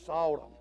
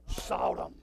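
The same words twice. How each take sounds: First: Said in the usual way. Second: Breathy whispered sought him. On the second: Acted. Preacher whispering the phrase to the congregation, hushed. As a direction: hush it to a whisper.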